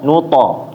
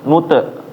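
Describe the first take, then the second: First: The short echo after t sounds like o. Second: The short echo after t sounds like e. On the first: The speaker calls it right. "Jadi dari to jadi to ya" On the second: The speaker calls it wrong. "Jangan nute"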